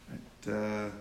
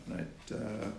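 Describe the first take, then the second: The two takes are said the same way.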